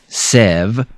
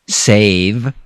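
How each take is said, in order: First: The vowel is not a long A sound. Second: The vowel is a long A sound. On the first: The speaker calls it wrong. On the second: The speaker calls it right.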